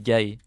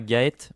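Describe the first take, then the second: First: The name ends without a T sound. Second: The name ends with a T sound. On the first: The speaker calls it right. "Le T ne se prononce pas à la fin" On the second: The speaker calls it wrong. "se prononce pas Gaët"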